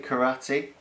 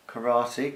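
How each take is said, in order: First: "karate" said with an r-coloured vowel, kuh-AH-tee; "karate" the way they say it round his way; the local way of saying karate. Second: "Karate" said with a clear rolled-through R, kuh-RAH-tee; "Karate" with a tapped R in the middle; one way of saying karate. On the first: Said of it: "That's what we say round our joint". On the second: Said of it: "Karate just sounds wrong". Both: Shown as a demonstration.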